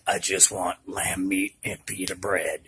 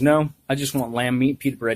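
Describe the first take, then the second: First: It is said in a raspy voice. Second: It is said in a plain voice.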